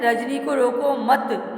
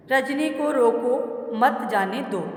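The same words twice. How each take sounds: First: "Rajni को रोको मत" as one phrase, comma pause after "मत". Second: Slow "रजनी को रोको", comma pause, falling "मत जाने दो"; pause after रोको. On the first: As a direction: run "रोको मत" together, then stop. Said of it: "मत के बाद में आया coma". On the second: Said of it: "फिर कोमा आया इसमें". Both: Shown as a demonstration.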